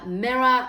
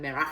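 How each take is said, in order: First: Said in the usual way. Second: Mirror said the northern English way; northern accent. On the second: Shown as a demonstration. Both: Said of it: "but in my northern accent".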